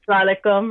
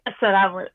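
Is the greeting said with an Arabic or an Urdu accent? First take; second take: Urdu; Arabic. First: The greeting has an Urdu-accented pronunciation. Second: The greeting has a pure Arabic pronunciation. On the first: "Mine is with the Urdu slant. So I say salaikum" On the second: "you guys say assalamu"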